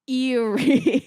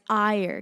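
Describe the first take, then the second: First: The word sounds like 'Erie'. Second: The word sounds like 'Ire'. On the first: The speaker calls it wrong. "to a stupid American, it would be Erie" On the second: The speaker calls it right. "say it right. It's Ire"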